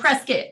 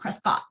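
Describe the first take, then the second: First: The name is said in the local pronunciation. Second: The name is said in the tourist pronunciation. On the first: The speaker is from the town. The speaker calls it right. "We're Prescott" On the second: The speaker is a visitor to the town. The speaker calls it wrong. "not Prescott"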